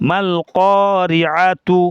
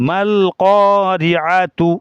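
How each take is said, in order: The two takes are said the same way.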